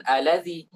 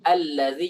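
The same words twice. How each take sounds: First: "allazi" with a short, light single l and no stress; wrong single l. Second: "Allazi" with the ll held and stressed; doubled l correct. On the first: Teacher showing the wrong reading, short single l in "allazi". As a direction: skip the doubled l in "allazi" as the mistake. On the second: Teacher showing the correct reading, held doubled l in "Allazi". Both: Shown as a demonstration.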